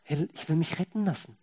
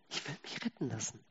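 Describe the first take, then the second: First: Said in the usual way. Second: Quiet echo. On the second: Shown as a demonstration. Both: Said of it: "repeated line".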